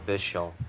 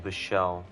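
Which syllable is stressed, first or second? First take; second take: first; second. First: The stress is on the first syllable. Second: The stress is on the second syllable. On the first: The speaker calls it right. "the enunciation is on the first syllable, not the second one" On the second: The speaker calls it wrong. "Keep getting his name wrong"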